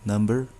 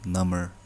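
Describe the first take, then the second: First: The b is pronounced in the middle. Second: The b is silent in the middle. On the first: It means a numeral. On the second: It means more numb.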